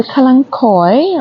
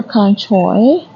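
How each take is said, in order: First: Kalanchoe ending in "koy"; hard-K pronunciation. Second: Kalanchoe ending in "choy"; CH pronunciation. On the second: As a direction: say kalanchoe as "KAH-lan-choy". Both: Shown as a demonstration. Offers two alternative pronunciations.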